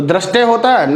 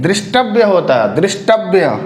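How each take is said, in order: First: दृष्टय as "drashtay", ra and no व; wrong form. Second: दृष्टव्य as "drish-tav-ya", व sounded; correct dri form. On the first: Teacher asks about the wrong form, dra sound. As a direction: say दृष्टय with dra, not dri. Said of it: "नहीं". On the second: Teacher gives students the correction, dri sound. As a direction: open दृष्टव्य with dri, end in vya. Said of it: "ये द्री हो जाएगा". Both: Shown as a demonstration.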